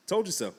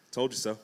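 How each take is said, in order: First: TOLD pitched up in a teasing repeat; playful told you so. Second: Said in the usual way. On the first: Retold or imitated. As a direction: rub it in with a grin. Repeated taunt from Jesus.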